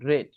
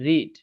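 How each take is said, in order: First: The vowel is short, like 'red'. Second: The vowel is long, like 'reed'. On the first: It is the past participle form. "উচ্চারণের সময় আমাদের বলতে হচ্ছে রেড" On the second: It is the present tense form. "তখন কিন্তু আমি বলছি রিড ... এটা হচ্ছে প্রেজেন্ট"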